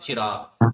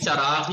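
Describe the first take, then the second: First: The first vowel is a short 'i' sound. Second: The first vowel is a short 'a' sound. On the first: The speaker calls it wrong. "हम गलत बोलते हैं चिराग" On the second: The speaker calls it right. "Urdu में भी चराग ही है"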